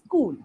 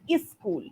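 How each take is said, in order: First: The word starts directly with the s sound. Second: An extra E sound comes before the s. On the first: The speaker calls it right. "It's school" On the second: The speaker calls it wrong. "some of us have this tendency to put an E sound before that. So you said is school, which is incorrect"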